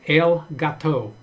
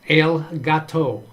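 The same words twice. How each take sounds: The two takes are said the same way.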